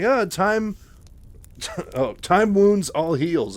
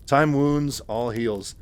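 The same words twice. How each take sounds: First: Stumbling reading with a laugh. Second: Said in the usual way. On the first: Real, not acted. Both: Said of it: "I almost read that backwards".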